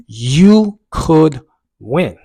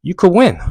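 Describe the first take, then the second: First: Very slow, loud, high "You ... could ... win"; drawn-out encouragement. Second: High, loud, quick "You could win"; encouraging inner voice. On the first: Runner's inner voice urging him on, slowly emphatic. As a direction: stretch each word, pausing between. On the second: Runner's inner voice at mile four, loudly encouraging. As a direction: urge yourself on at normal pace, pitched up. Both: Retold or imitated. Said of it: "the voice kinda changed".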